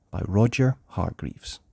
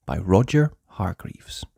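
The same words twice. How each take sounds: The two takes are said the same way.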